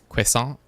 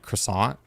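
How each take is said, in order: First: It is said with a French pronunciation. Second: It is said with an American pronunciation. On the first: The speaker calls it right. "the nicer, more quote unquote correct way of saying it" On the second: The speaker calls it wrong. "a lot of Americans say for saying uh, croissant"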